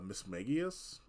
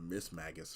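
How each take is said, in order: First: The name ends with a '-gius' sound, four syllables. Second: The name ends with a '-gus' sound, three syllables. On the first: The speaker calls it right. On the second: The speaker calls it wrong.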